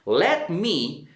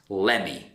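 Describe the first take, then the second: First: Both words are said fully and separately. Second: The words blend into one quick reduced word. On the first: "let me becomes lemme" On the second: "becomes lemme"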